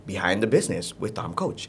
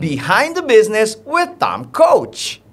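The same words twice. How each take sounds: First: Much lower, softer show title; low, subdued announcer take; low intonation. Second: High, slow announcer with stretched words; drawn-out, soaring show intro on "Behind the business"; big intonation. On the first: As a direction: drop your voice right down for the title. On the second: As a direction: hype up "Behind the business with Tom Coach", ending big on "Coach". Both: Shown as a demonstration. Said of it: "itu bisa dirubah-rubah".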